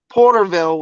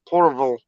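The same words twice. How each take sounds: First: The ending is a full, clear 'ville'. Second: The ending is reduced to a short 'vul'. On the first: This is how outsiders say it. "So like Porterville would be" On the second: This is how locals say it. "It's not Ville"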